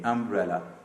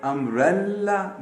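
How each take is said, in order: First: अम्ब्रेला lower, with one short L; touch the L in अम्ब्रेला only once; single L. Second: अम्ब्रेला with a long double L, "umbrel-la"; doubled L. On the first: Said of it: "एल को एक ही दफा पढ़ना है". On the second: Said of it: "एक ही दफा पढ़ा जाएगा". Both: Shown as a demonstration.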